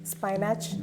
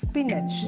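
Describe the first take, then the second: First: The first syllable sounds like spy. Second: The first syllable sounds like spin. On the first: The speaker calls it wrong. "സ്പൈനാച്ച് അല്ല" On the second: The speaker calls it right. "അങ്ങനെ വേണം നിങ്ങൾ പറയാൻ"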